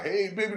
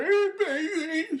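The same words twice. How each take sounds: First: Said in the usual way. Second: High, slow sultry come-on; mock flirty woman.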